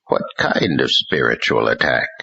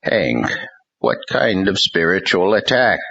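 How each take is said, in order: First: Said in the usual way. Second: Firm, pressing repeat question; almost demanding. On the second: A narrator's reading. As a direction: press him for the answer. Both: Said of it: "Farrell was almost demanding".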